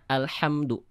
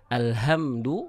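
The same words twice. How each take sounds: First: The h is a breathy, whispered sound. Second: The h is a plain, non-whispered sound. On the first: Praise be to God. The speaker calls it right. "Ha yang dia karakteristik nafasnya itu dia berbisik" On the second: Destruction be to God. The speaker calls it wrong. "kalau misalnya tertukar dengan huruf ha besar"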